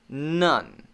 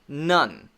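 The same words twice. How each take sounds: First: The word stops cleanly on the final n. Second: The same.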